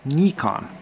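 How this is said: It is pronounced the Japanese way. "here in Japan, it is called"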